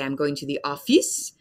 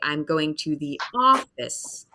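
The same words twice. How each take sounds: First: The stress falls on the final syllable. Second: The stress does not fall on the final syllable. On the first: This is how French speakers say it. The speaker calls it wrong. "This is the French pronunciation of these words or the French accent" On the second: This is how an English speaker says it. The speaker calls it right. "But for me, I would say"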